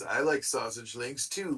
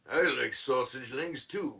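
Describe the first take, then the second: First: It is read in his normal speaking voice. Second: It is read in a put-on character voice.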